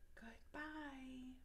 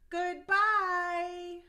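First: It is said very quietly. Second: It is said very loudly.

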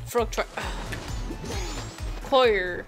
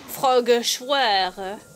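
First: Choir sounds like 'coyer'. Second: Choir sounds like 'schwer'. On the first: The speaker calls it right. "That's how you pronounce this" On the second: The speaker calls it wrong. "Not uh"

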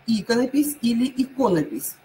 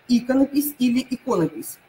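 The two takes are said the same way.

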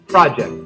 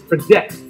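First: The stress is on the first syllable. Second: The stress is on the second syllable. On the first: "the stress on the first part" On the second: "The stress on the second part is project"

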